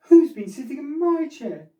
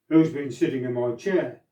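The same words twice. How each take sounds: First: It is said in a middle-sized voice. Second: It is said in a great big voice.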